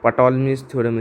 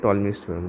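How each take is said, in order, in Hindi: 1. शुरू की P की आवाज़ बोली जाती है। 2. शुरू की P की आवाज़ साइलेंट है। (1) "इसे नहीं कहते हैं" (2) "कहते हैं"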